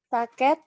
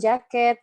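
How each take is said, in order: First: The word begins with a 't' sound. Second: The word begins with a 'j' sound. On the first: The speaker calls it wrong. "Tapi Ananda mengucapkan menjadi" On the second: The speaker calls it right. "berawalan huruf ja"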